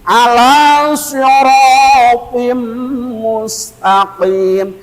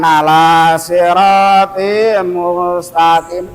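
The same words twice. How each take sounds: First: The s sound is heavy and forceful. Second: The s sound is light and plain. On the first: The speaker calls it right. "pakai tenaga" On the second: The speaker calls it wrong.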